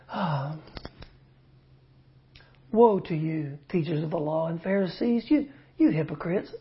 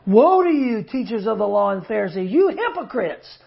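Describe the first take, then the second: First: It is said timidly and hesitantly. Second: It is said forcefully and boldly.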